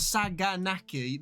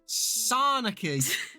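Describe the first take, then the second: First: A G sound is heard in the middle. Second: No G sound is heard in the middle. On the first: The speaker calls it wrong. "If it's it's not Saganaki" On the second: The speaker calls it right. "apparently the G is silent"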